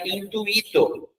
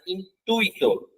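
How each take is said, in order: First: Slow "intuito" split as in-tu-Í-to; pronúncia separada. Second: "intuito" with UI glided as one syllable, in-TUI-to; pronúncia grudada. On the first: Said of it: "seria separado". ("intuito" devagar, com hiato: in-tu-Í-to) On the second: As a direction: keep u and i together in "intuito". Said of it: "a pronúncia dele é grudadinha". ("intuito" com o ditongo UI junto) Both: Shown as a demonstration.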